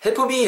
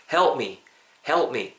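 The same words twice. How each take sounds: First: "help me" with an extra vowel, helpu-mi; Korean-style "help me", p sounded as pu; mispronounced English. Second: "help me" run together, p barely released; natural pronunciation. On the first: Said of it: "이거 발음 못해서 help me". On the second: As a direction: say "help me" with no vowel between p and m. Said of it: "요렇게 발음이 되고요". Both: Shown as a demonstration.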